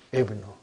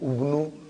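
First: The word begins with an i vowel. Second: The word begins with a u vowel. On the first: The speaker calls it right. "It is Ibnu" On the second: The speaker calls it wrong. "I will never say Abnu, Ubnu"

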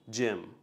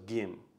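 First: The word is pronounced the English way. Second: The word is pronounced the Vietnamese way.

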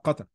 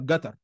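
First: The first consonant is a q sound. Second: The first consonant is a g sound. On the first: "مش هيقول لك قطر" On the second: "في ناس بتنطق القاف جيم"

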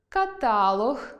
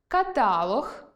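No difference in how they are said.

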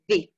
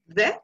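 First: The vowel is a long 'ee' sound. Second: The vowel is a short, weak 'uh' sound. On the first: The next word begins with a vowel. "before vowels, it is pronounced the" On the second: The next word begins with a consonant. "before consonants, the is pronounced like the"

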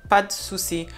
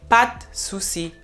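First: The vowel in "de" is almost dropped. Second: The same.

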